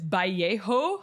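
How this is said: The name is said with a Spanish pronunciation. It is how native Spanish speakers say it. "my Spanish friends are like, it's Vallejo"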